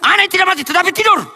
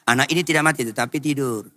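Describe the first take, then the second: First: It is said as a sharp, scolding exclamation. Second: It is said uncertainly, like asking a question.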